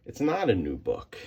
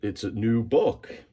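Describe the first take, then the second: First: Not pressed firmly with a falling tune; stress on not. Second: It's a new book, said as a proud claim with a rising end; mock boast. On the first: Shown as a demonstration. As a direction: correct yourself by hitting not. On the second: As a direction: pretend to show off the book as new. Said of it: "and say".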